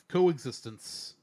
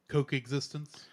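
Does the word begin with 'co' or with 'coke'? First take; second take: co; coke. First: The first syllable sounds like a plain co. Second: The first syllable sounds like the word coke. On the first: "I'll say it right this time" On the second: "I'm gonna start calling it Coke existence"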